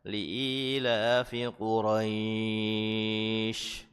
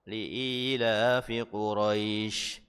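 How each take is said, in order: First: The vowel in Quraisy is drawn out long. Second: The vowel in Quraisy is held for two counts. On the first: "Atau bisa dibaca yang panjang ya" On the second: "atau mau dibaca dua harokat juga tidak mengapa"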